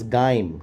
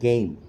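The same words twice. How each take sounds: First: It is said in an Australian accent. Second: It is said in a standard, non-Australian accent. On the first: "Ricky Ponting or someone from Australia would pronounce always game" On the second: "not game"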